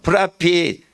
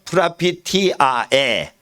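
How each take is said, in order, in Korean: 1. 빨리 말하면 한 번의 'eh'로 끝나요. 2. 정확하게 말하면 'ah-eh'로 끝나요. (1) "빨리 해버리면 예 그렇게" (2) "정확히 하면"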